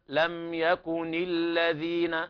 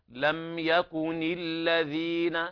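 Both takes have the same delivery.

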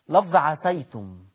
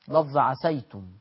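No difference in how they are said.

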